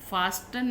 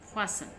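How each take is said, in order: First: The t sound is pronounced in the middle. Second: The t sound is left out entirely. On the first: The speaker calls it wrong. "हम इसको फास्टन नहीं पढ़ते" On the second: The speaker calls it right. "फासन पढ़ते हैं इसको हम"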